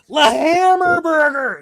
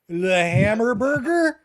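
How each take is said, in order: First: It is shouted loudly. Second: It is said at normal volume.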